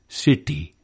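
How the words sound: The t is unaspirated with the tongue curled back. "unaspirated and retroflex in Indian city"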